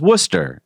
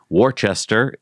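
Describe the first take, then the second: First: It is said with the local pronunciation. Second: It is said the way it is spelled. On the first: The speaker calls it right. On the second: The speaker calls it wrong. "not the way it's spelled"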